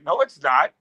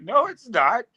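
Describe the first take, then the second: First: Mild mock denial; retold contradiction. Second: High-pitched retold contradiction; mock emphatic denial. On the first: Friend disputes the bar dude's claim, mildly contradicting. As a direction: contradict the other man, fairly evenly. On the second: Friend argues with bar dude, escalating mock denial. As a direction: pitch it up and contradict him harder.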